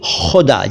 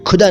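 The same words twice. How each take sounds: First: It starts with a raspy fricative kh sound. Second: It starts with a plain aspirated k sound. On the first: The speaker calls it right. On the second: The speaker calls it wrong.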